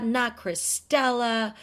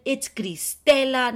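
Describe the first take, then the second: First: Cristela drawn out with English vowels; English pronunciation. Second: Cristela with Spanish vowels and tapped r, loud; Spanish pronunciation. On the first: Critics mocking her name, English pronunciation of Cristela. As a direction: say Cristela slowly in an American accent. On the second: Critics correcting her name, Spanish pronunciation of Cristela. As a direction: stress Cristela slowly in a Spanish accent. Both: Retold or imitated. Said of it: "saying your name with an English accent".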